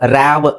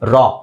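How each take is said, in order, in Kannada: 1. ಪದ 'ವಿ' ಶಬ್ದದಲ್ಲಿ ಮುಗಿಯುತ್ತದೆ. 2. ಪದ ದೀರ್ಘ ತೆರೆದ ಸ್ವರದಲ್ಲಿ ಮುಗಿಯುತ್ತದೆ. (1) "ಆವ್ ರ್ಯಾವ್ ಅಂತ ಹೇಳಲ್ಲ" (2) "ಒಂದು ಆ"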